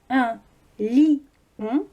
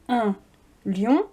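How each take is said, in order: First: Lion is split into two syllables. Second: Lion is said as one syllable. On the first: "on a trois syllabes" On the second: "ça fait deux syllabes"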